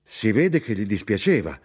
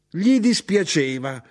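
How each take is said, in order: First: Said in the usual way. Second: High, indignant echo; outraged shout. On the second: A narrator's reading. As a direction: throw the words back in a raised voice. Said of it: "gridò mia madre".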